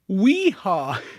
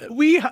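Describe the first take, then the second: First: It is said in a plain, ordinary accent. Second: It is said with a French accent.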